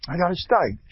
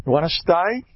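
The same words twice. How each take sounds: First: Steig said in full with a hard g at the end, falling. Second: Steig said as "sty", rising question. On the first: Rabbi answering his own question about steig. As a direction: answer "I got a steig." with a crisp final g. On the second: Rabbi asking the class if they want a steig. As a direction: ask "You want a steig?" with the g dropped, like "sty". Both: Shown as a demonstration. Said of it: "Steiging means".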